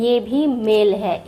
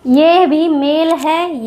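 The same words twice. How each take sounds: First: Said in the usual way. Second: ये भी मेल है said slowly, stressing ये; slow demo. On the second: Shown as a demonstration. Teacher slowly showing the first मेल to students.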